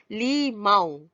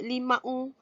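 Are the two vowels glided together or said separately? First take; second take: glided; separately. First: The two vowels glide together as one sound. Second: The two vowels are pronounced as separate sounds. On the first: The speaker calls it right. "saya nak buah limau satu" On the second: The speaker calls it wrong. "Tak ada kan orang sebut limau?"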